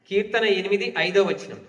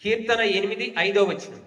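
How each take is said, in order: Both takes have the same delivery.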